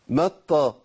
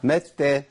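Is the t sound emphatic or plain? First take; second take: emphatic; plain. First: The t sound is emphatic and heavy. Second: The t sound is plain and light. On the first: The speaker calls it wrong. "هي طا ولا تا؟" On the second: The speaker calls it right. "تا"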